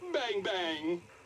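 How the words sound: It is said in a happy tone.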